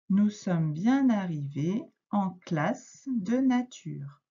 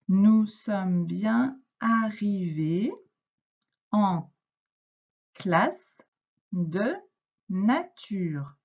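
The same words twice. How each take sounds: First: It is read at normal speed. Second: It is read very slowly.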